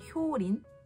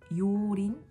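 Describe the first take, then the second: First: The name begins with a hyo sound. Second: The name begins with a plain yo sound. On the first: The speaker calls it right. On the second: The speaker calls it wrong.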